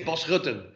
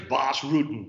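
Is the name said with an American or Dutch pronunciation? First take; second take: Dutch; American. First: The name has a Dutch pronunciation. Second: The name has an American pronunciation. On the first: "in Holland say"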